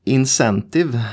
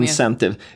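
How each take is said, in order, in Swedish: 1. Ordet uttalas på ett svenskt sätt. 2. Ordet uttalas på ett engelskt sätt. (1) "Jag vet inte hur de uttalar det" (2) "säg med engelska"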